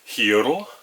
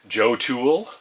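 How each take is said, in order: First: The name begins with an H sound. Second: The name begins with a J sound. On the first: The speaker calls it right. "or as it's actually pronounced, I've heard" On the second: The speaker calls it wrong. "we are trying to make the hearth pad for the Joe Tool"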